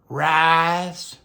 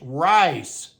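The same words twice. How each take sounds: First: The vowel is drawn out long. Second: The vowel is short and crisp. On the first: The speaker calls it wrong. "It's stupid" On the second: The speaker calls it right. "It's rice"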